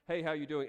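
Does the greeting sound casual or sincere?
casual. It is a quick, casual, uncaring greeting.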